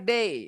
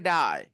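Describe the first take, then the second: First: The vowel sounds like 'ay'. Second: The vowel sounds like 'eye'. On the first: "हम लोग बोलते हैं D A Y डे" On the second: "तो वो बोलेंगे डाई"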